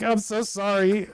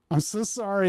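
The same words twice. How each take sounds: First: Slow, fake-sorry apology; a drawn-out insincere sorry; mock-humble sorry to the donor. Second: A rich man's insincere sorry; sarcastic sorry about being rich; mock apology. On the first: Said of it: "You're like". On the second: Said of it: "I'm just so rich".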